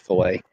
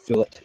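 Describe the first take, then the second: First: The final T is silent, French style. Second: The final T is pronounced clearly. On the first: The speaker calls it wrong. "everybody thinks it's French" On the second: The speaker calls it right. "fillet with a hard T, like a Brits"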